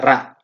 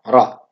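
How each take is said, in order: First: The R is light with an open vowel. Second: The R is heavy with a rounded vowel. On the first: The speaker calls it wrong. "Tidak ra" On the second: The speaker calls it right. "bahasanya ro"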